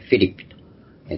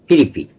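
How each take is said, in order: First: The name starts with an f sound. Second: The name starts with a p sound. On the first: This is closer to the original language. "原文の発音、言語の発音に近いようにとフィリピと" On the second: This is the older Japanese rendering. "以前はピリピという日本語でしてたんですが"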